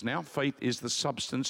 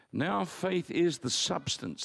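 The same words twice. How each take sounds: First: Said in the usual way. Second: Slow, with "is" weighted and falling; stress on is. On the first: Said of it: "the Greek word says". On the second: Shown as a demonstration. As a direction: lean on "is" and read it slowly. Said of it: "The word substance is".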